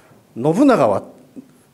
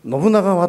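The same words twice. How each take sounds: First: The pitch accent falls on the syllable bu. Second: The pitch accent does not fall on bu. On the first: The speaker calls it right. "にしてくださいと" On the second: The speaker calls it wrong. "ちょっとアクセントが違うらしいんですね"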